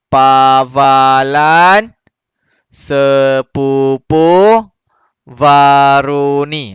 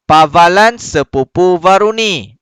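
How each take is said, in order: First: It is read slowly, word by word. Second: It is read quickly and smoothly.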